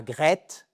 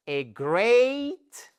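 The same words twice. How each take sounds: First: "great" with a French rolled R and short è; the wrong French "great"; French-style great. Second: "great" with an English R and long ay vowel, rising. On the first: Teacher mocks learners' French "great". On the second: Teacher models "great" in English, rising. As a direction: say "great" like a native. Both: Shown as a demonstration. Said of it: "et pas great".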